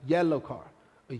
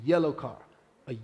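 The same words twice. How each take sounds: The two takes are said the same way.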